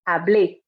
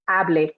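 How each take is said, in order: First: The stress falls on the last syllable. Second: The stress falls on the first syllable. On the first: A past-tense form meaning 'I spoke'. "make sure that that accented letter is strong" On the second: A totally different conjugation. "if there's no accent on that E, I would pronounce it hable"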